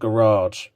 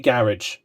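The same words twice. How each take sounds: First: The word is pronounced with an American accent. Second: The word is pronounced with a British accent. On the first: "not garage" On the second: "I normally say garage, personally, because I'm from the U K"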